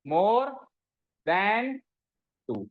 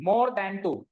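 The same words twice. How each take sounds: First: MORE, pause, THAN, pause, TWO; word-by-word dictation. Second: Said in the usual way. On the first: Shown as a demonstration. Teacher giving students the words to copy, word-by-word dictation. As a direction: hang MORE and THAN on a rising tone, pausing after each.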